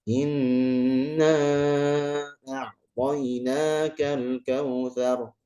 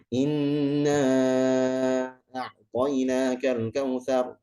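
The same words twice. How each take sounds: First: It is recited at a moderate speed. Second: It is recited quickly. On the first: It suits leading prayer or group recitation. "Kalau tadwir berarti pertengahan" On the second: It suits quick recitation in night prayers or review. "cepat ya, hadar"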